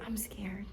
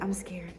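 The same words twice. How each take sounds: First: Breathy unvoiced whisper. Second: Soft, hushed and low; quiet prayer. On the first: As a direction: whisper it like a scared prayer. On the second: Retold or imitated. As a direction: murmur it as a private prayer. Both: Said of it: "I just had to pray quietly".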